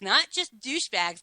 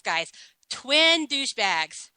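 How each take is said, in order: First: Said in the usual way. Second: Twin leaned on, slowed and drawn out; stress on twin. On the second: Real, not acted. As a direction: hit the word twin hard and slow.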